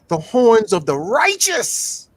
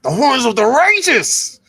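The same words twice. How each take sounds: First: It is said plainly, without extra flair. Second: It is said with swagger and forceful flair.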